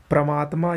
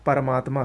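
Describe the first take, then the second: First: परमात्मा opening on a "pra" cluster; wrong pronunciation. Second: परमात्मा opening on "par"; a vowel between p and r in परमात्मा; correct pronunciation. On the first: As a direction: drop the vowel between p and r in परमात्मा. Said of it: "ये गलत है". (परमात्मा को "प्रमात्मा" बोलें) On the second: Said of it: "सही है". (परमात्मा में साफ़ "पर") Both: Shown as a demonstration.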